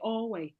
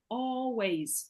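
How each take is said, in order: First: The word ends without an s sound. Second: The word ends with an s sound. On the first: The speaker calls it wrong. "Remember with S, don't say always" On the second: The speaker calls it right. "No, always"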